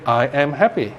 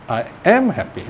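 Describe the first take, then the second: First: Said in the usual way. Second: "am" lifted and leaned on in "I am happy"; stress on AM. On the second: Shown as a demonstration. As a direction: stress the word "am" to single it out. Repeated to single out "am.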